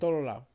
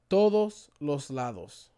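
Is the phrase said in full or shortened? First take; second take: shortened; full. First: The phrase is shortened, with syllables dropped. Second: The phrase is said in full, every syllable pronounced. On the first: This is how the speaker's own community says it. "We say" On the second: This is how other speakers say it. "We don't say that"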